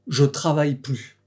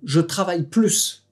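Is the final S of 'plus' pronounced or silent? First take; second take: silent; pronounced. First: The final S of plus is silent. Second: The final S of plus is pronounced. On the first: I have stopped working now. "tu ne prononces pas le S final" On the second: I am going to work even more. "si je prononce le S final"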